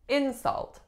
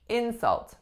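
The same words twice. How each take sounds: First: The stress is on the first syllable. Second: The stress is on the first syllable.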